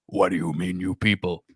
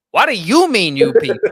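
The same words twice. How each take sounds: First: Said in the usual way. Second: The quote again, louder and affronted; louder indignant repeat. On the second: Retold or imitated. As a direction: punch the repeat with mock outrage. Quoting movie line, louder take.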